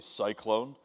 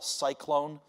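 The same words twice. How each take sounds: First: It is said in a deeper voice. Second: It is said in a normal voice.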